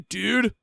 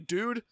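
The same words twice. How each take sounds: First: It is said in a drawling bro accent. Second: It is said in a plain neutral voice. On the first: It refers to a man. "when you're saying it with the dude bro accent, it means guy" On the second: It refers to a man or a woman. "that means man or woman"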